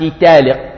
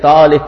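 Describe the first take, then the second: First: The first consonant is a plain, non-emphatic t. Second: The first consonant is an emphatic t.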